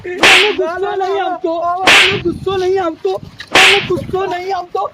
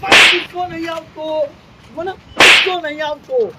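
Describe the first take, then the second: First: Loud angry denial, hammered again and again; furious shouting. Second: Loud, heated denial; still angry. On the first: Grandpa shouting back at the teasing boy, furious. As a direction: shout it, fuming, over and over. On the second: Grandpa still yelling at the boy that he's calm. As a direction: keep insisting, still fuming. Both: Acted.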